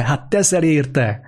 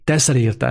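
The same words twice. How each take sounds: First: Slow, with "teszel" drawn out and weighted; stress on teszel. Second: Said in the usual way. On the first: Shown as a demonstration. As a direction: lean hard on "teszel", slowly. (lassan, a „teszel” szót erősen hangsúlyozva)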